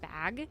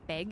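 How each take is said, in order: First: The vowel is open, like in 'cat'. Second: The vowel is raised, like in 'beg'. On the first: This is the way the other person prefers it. "instead of bag" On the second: This is the speaker's own regional way of saying it. "when I said beg instead of bag"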